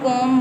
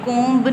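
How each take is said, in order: First: The word ends on m with no b. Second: A b sound is heard after the m. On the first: The speaker calls it right. "इसको हम कोम बोलेंगे" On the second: The speaker calls it wrong. "कोम्ब नहीं बोलना आपने"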